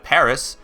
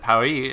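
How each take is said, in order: First: It is said the American way, ending in s. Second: It is said the French way, without the final s. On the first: This is the English name for the city. "like the Americans say" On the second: This is the local name for the city. "internationally, everyone says Paris"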